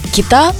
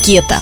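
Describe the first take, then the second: First: The stress is on the second syllable. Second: The stress is on the first syllable. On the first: The speaker calls it wrong. "Часто ее называют как кита" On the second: The speaker calls it right. "ударение правильно ставить на первый слог"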